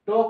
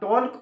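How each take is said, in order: First: The L sound is left out entirely. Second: The L sound is pronounced before the K. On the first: The speaker calls it right. "এটা তো silent" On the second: The speaker calls it wrong. "যদি এল তাহানা ওনা টল্ক উচ্চারণ"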